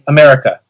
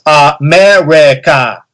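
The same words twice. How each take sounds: First: The final vowel is a weak, reduced schwa. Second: The final vowel is fully and clearly pronounced. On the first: "a word with a schwa at the end" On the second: "if you start like enunciating it"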